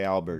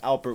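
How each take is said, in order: First: The middle consonant is a B sound. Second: The middle consonant is a P sound. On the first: The speaker calls it wrong. "Don't don't don't say Albert" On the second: The speaker calls it right. "That's Alpert with a P"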